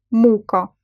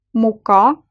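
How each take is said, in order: First: "мука" stressed on the first syllable, MU-ka. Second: "Мука" stressed on the last syllable, mu-KA; short MU, then a full stressed KA in "Мука"; stress on second syllable. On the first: Teacher showing learners how stress changes meaning, "мука" stressed on MU. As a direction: hit MU in "мука", weak final vowel. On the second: Teacher showing learners how stress changes meaning, "Мука" stressed on KA. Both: Shown as a demonstration. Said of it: "meaning of the word depends on it".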